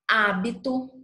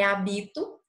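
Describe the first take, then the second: First: The stress is on the first syllable. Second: The stress is on the second syllable. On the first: The speaker calls it right. "aqui é hábito, olhem a, o acento" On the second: The speaker calls it wrong. "não é habito"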